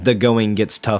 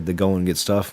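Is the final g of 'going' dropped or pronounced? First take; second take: pronounced; dropped. First: The final g of going is pronounced. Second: The final g of going is dropped. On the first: "instead of saying" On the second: "We just slap that G off"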